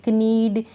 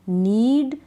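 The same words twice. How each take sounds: First: कनीड with an audible K before the N; K wrongly sounded. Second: नीड starting straight on the N, no K; silent K. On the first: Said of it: "इस तरह से नहीं". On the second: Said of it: "इसको pronounce नहीं कर रहे". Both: Shown as a demonstration.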